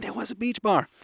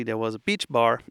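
First: "there was a beach bar" lifted high in delighted confirmation; emphatic confirmation. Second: Said in the usual way. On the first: Real, not acted.

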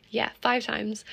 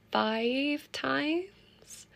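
First: Said in the usual way. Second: Five times, rising high and proud on "five"; proud rise. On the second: Shown as a demonstration. Telling listeners her gym count, rising proudly. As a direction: lift "five times" up like an amazed question.

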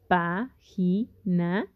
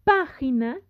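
First: "Página" very slowly as pá-gi-na; syllable by syllable. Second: Said in the usual way. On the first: Shown as a demonstration. Teacher showing students how to separate the word, syllable by syllable. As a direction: split "Página" into three spaced beats, pá, gi, na. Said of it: "que ustedes la separen". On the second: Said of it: "Página tiene su sílaba tónica".

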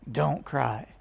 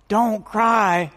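First: Much lower and softer, almost murmured; hushed gentle "Don't cry". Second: Said in the usual way. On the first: Acted. Jesus quietly telling the grieving mother, hushed. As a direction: lay "Don't cry" down low and soft, like consoling.

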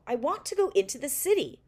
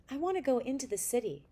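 First: Louder, higher insistent plea; insistent demand. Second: Said in the usual way. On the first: Acted. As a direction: demand it like a child who won't take no. Boy insists after refusal.

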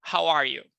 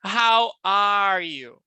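First: "How are you" joined up, lower; more challenging pace. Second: "how are you" louder, slow, rural R in "are". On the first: Teacher giving students the harder drill, "How are you" joined up, lower. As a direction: run "How are you" together in one go. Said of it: "de uma maneira mais desafiadora". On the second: Teacher drilling students on "how are you", slow with rural R in "are". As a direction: draw out each word, bumpkin R in "are". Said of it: "lembra do matuto? Vamos lá". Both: Shown as a demonstration.

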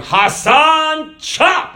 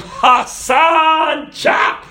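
First: Very high, loud cartoon guard bellowing Hassan, chop; hammed-up cartoon brute barking the order. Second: Much higher and louder, chop forced out in a hoarse unvoiced yell; shouted Hassan impression. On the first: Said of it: "he was walking around going". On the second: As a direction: bellow it like a cartoon executioner. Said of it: "God's coming around going".

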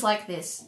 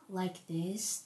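First: Said in the usual way. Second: Low, very soft podcast voice; peaceful podcast voice. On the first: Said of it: "my voice is like this". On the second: Shown as a demonstration. Podcaster demonstrating how others normally talk, peaceful and hushed. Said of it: "their voice is very peaceful".

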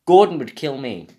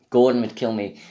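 First: "Gordon" punched loud; louder take. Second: Said in the usual way. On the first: Acted. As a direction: hit "Gordon" loudly and firmly. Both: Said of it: "repeated take".

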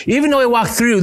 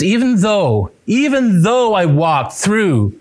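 First: "Even" hit high and bright; higher, punchy "Even though I walk through"; stress on even. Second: "even though" drawn out slow and weighty; slow, deliberate "even though I walk through"; stress on even though. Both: Shown as a demonstration. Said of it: "do you see it?".

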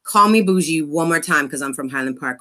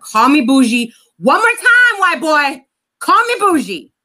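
First: Said in the usual way. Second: Louder, rising challenge as the threat repeats; "Call me bougie" thrown back harder each time; mock angry threat. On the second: Retold threat, escalating.

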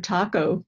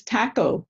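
First: Said in the usual way. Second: "taco" with the short A of "cat"; Canadian taco. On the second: Retold or imitated. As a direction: say "taco" as "tack-o". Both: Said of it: "instead of taco".

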